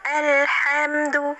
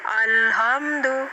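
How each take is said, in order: First: The opening vowel is overly thin and spread. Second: The opening vowel is heavy and thickened. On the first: "lebih tipis, terlalu senyum"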